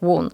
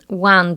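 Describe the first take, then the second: First: It is said in a northern Yorkshire accent. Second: It is said in a southern London accent. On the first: "they were saying one" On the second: "instead of they going one"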